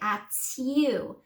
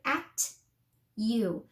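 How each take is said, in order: First: The two words slide together as one. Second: A strong T, then a separate you. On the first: "slide them together so it's one word" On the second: "really saying at with a strong T"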